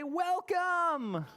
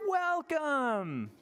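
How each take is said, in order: First: High, ringing welcome; welcoming host. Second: High, falling welcome; welcoming host. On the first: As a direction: greet the guests grandly. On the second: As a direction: model it for the kids to repeat. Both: Shown as a demonstration. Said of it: "Can you say".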